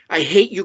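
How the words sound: It is said in an angry tone. The anger is expressed directly. "if I were angry"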